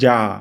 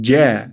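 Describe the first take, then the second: First: The vowel is a plain open 'aa'. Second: The vowel is flattened toward 'ae'. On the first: The speaker calls it wrong. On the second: The speaker calls it right.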